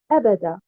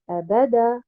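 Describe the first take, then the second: First: The stress is on the first syllable. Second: The stress is on the middle syllable. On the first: It is one word meaning eternally. The speaker calls it right. "en mettant un nabr sur harakat al-hamza" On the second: The word is split into two words. The speaker calls it wrong. "En plaçant un nabr sur harakat al-ba"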